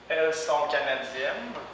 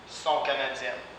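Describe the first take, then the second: First: The pronoun elles is fully pronounced. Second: The pronoun elles is dropped entirely.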